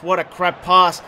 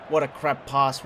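First: "What a crap pass" again, louder and slower, each word hit; louder repeat. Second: Said in the usual way. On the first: Real, not acted. Gamer yelling at his player's bad pass, louder repeat. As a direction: blurt it out in disgust the second time.

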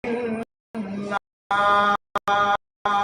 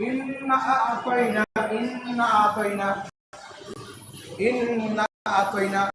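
First: ইন্না আতাইনা with long held n and vowels; correct long stretch. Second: ইন্না আতাইনা without the long stretch; mistaken short reading. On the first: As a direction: chant ইন্না আতাইনা, very drawn out. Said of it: "সঠিকটা হবে টান হবে". (ইন্না আতাইনা লম্বা টান দিয়ে পড়া) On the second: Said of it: "এখানে আমাদের অনেকের ভুল হয়". (ইন্না আতাইনা টান না দিয়ে পড়া) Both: Shown as a demonstration.

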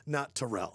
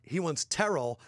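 First: "Terrell" stressed on the second syllable, lower; tuh-RELL, weight at the back of "Terrell"; wrong pronunciation. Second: "Terrell" stressed on the first syllable; TER-ul, weight up front in "Terrell"; preferred pronunciation. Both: Shown as a demonstration.

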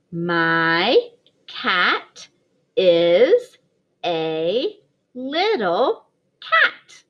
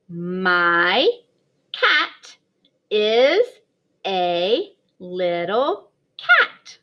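First: Slow word-by-word reading with a little laugh at the end; slow choral reading. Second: Slow word-by-word reading, stretched cat; slow read-aloud. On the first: Teacher reading along with her class, slow. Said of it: "Read it with [name] if you can". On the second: Kindergarten teacher modelling reading, slow and clear. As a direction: read each word apart, slowly, for little ones. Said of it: "We could try to read the sentence". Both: Shown as a demonstration.

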